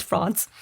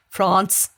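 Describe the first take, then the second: First: France said with a broad Aussie accent. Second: France said the French way, nasal vowel; France with a French accent, as Rachel would say it. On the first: Host contrasting Aussie France for guest. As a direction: flatten France into Aussie English. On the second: Host demonstrating French pronunciation to guest. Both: Shown as a demonstration. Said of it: "if you say with an Aussie accent".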